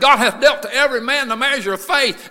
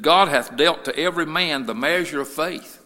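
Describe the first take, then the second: First: Verse cried out high and loud; full-force preached scripture. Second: Measured but loud verse reading; scripture reading. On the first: Preacher driving the Romans verse home, full-force preaching. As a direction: preach the verse in a raised, ringing shout. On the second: Preacher reading Romans to the church, firm scripture reading. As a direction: read the verse out firmly at a normal pitch. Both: Real, not acted.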